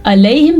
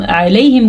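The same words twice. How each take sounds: First: "علیہم" with a light hamza start; plain a, no ayn. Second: "علیہم" with a squeezed ayn start; throat ayn. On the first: Teacher showing the word meaning towards them, "علیہم" without ayn. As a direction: begin "علیہم" without throat squeeze. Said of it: "علیہم کا مطلب ہے ان کی طرف". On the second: Teacher showing the word meaning upon them, "علیہم" with ayn. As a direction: begin "علیہم" from mid-throat. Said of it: "علیہم کا مطلب ہے ان کے اوپر". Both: Shown as a demonstration.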